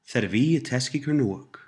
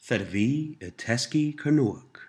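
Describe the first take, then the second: First: The phrase is spoken at a normal pace. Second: The phrase is spoken at a slower pace.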